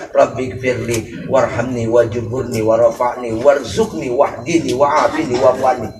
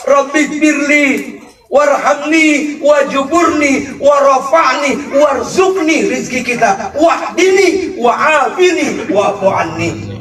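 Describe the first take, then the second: First: Prayer recitation. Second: Fervent prayer. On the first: Preacher reciting the dua as people pray it, low and soft. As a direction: murmur the dua quietly as in prayer. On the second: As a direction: cry the dua out with full fervour. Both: Shown as a demonstration.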